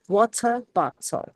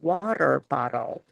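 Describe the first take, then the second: First: British accent, with strongly pronounced T's. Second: American accent, with the T's softened to a D. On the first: "The British accents really emphasize their T's" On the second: "In American English, we soften our T's a lot to a D"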